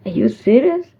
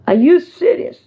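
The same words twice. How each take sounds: First: Said in the usual way. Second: Higher, punchier challenge; indignant disbelief. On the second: Real, not acted. Vlogger challenging a disrespectful caller, indignant and incredulous. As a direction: throw the question out in raised-pitch disbelief. Repeats the indignant question harder.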